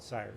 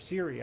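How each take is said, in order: First: The name ends without a final vowel. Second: The name ends with an 'ee' vowel. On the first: The speaker calls it wrong. "I always call it Sire" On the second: The speaker calls it right. "I think it's the correct pronunciation"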